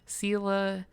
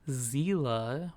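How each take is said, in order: First: The name begins with an S sound. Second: The name begins with a Z sound.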